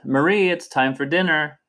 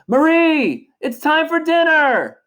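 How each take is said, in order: First: It is said in a plain speaking voice. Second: It is shouted loudly.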